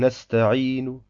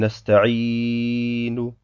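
First: The long vowel is held for two counts only. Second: The long vowel is stretched well beyond two counts. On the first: The speaker calls it right. "Ich muss also sagen Nesta'inu" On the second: The speaker calls it wrong. "das Mad in die Länge ziehen ... Das wäre falsch"

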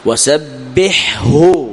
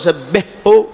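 First: The ḥ is pronounced clearly before the h. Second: The ḥ is merged into the following h. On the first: The speaker calls it right. "وسبح هكذا تقول" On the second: The speaker calls it wrong. "هذا أضغمت، هذا خطأ"

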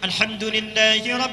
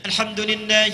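First: The words are recited at a moderate, longer pace. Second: The words are recited quickly with short vowels. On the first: "mutawassit, pertengahan" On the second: "itu disebut dengan qiraah hadar, cepat"

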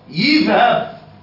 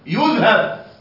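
First: The first syllable has the vowel i. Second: The first syllable has the vowel u. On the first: "أو كسرة" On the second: "وليس ضمة"

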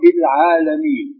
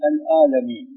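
First: The word contains the throaty ayn sound. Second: The ayn is replaced by a plain vowel onset. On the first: This is the standard reading non-Arabs cannot produce. "ما يستطيعون أن يقرأوا" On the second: This is how non-Arabs say it. "يقلبون العين إلى ألف"

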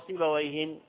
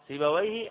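First: The name ends with an added n sound. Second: The name ends without an added n sound. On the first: The name is treated as indefinite. The speaker calls it wrong. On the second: The name is treated as definite. The speaker calls it right.

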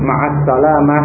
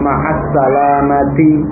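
First: The last word ends without a final vowel. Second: The last word ends with an -ti ending. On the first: This is the casual everyday way of speaking. "dibaca dengan sukun" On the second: This is the careful way used when studying. "dibaca sesuai dengan harakatnya yang tepat"

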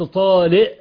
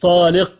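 First: The q sound is replaced by a glottal stop. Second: The q sound is a full uvular stop. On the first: "بالهمزة" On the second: "مش طالق"

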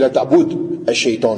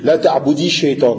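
First: The verb ends without a vowel before shaytan. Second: The verb ends with an 'i' vowel linking on. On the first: "à l'origine c'est ... avec une soukoun" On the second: "Quand on fait la liaison, c'est la même règle... on met une kasra"

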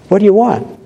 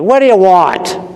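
First: It sounds warm and welcoming. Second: It sounds curt and dismissive.

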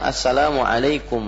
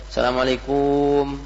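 First: The final syllable 'kum' is kept short. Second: The final syllable 'kum' is drawn out long. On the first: The speaker calls it right. "yang benar itu ucapannya assalamualaikum warahmatullahi" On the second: The speaker calls it wrong. "bukan assalamualaikum, itu kumnya kepanjangan"

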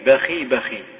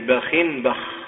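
First: Both words end in a short i, without n. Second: First word ends in -in; second ends without vowel. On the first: "كسر آخرهما بلا تنوين" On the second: "بكسر الأول منونا وسكون الثاني"

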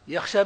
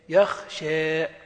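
First: The word ends in a clear long a. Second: The word ends in a vowel between a and i. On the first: "يخشى بالألف" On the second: "والإمالة بينهما"

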